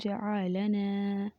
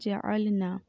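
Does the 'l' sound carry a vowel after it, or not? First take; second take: vowel; no vowel. First: The l sound is followed by a vowel. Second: The l sound has no vowel after it. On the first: The speaker calls it wrong. "साकिन हर्फ को मुतहरिक पढ़ दिया" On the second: The speaker calls it right. "लाम के ऊपर जो है वो जज़म है"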